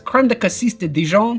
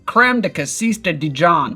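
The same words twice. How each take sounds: First: It is said with a French-style accent. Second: It is said with an American accent. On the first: "I'm gonna attempt it anyway" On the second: "I'm gonna say this with an American accent"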